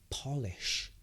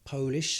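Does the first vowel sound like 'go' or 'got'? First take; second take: got; go. First: The first vowel sounds like 'got'. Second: The first vowel sounds like 'go'. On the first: It means a substance that makes things shine. "but also you can pronounce it as Polish" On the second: It means from Poland. "so that is a country"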